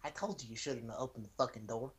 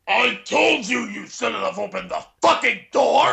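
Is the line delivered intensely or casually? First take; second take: casually; intensely. First: It is delivered casually, in a relaxed way. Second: It is delivered intensely, like a shout.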